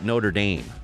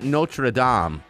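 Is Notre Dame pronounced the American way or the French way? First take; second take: American; French. First: Notre Dame is said with an American pronunciation. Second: Notre Dame is said with a French pronunciation. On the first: This is how Americans say the name. "but we call it Notre Dame" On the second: This is the original form of the name. "Why is it Notre Dame"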